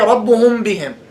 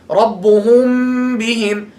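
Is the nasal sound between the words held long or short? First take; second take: short; long. First: The nasal sound is short, like everyday speech. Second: The nasal sound is held long and prolonged. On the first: This is how it is said in ordinary speech. "So they say" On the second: This is how it is recited with tajweed. "Now in tajweed you just prolong it"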